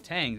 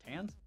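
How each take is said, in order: First: It ends with an ng sound. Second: It ends with a plain n sound. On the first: The speaker calls it wrong. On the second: The speaker calls it right.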